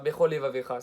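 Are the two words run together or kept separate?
run together. The two words are run together without separation. The speaker calls it wrong.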